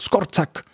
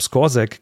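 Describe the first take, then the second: First: The name is said short, snappy and crisp. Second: The name is said with an English-like sound. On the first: The speaker calls it right. "es wird zackiger" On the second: The speaker calls it wrong. "ein bisschen anglifiziert ausgesprochen"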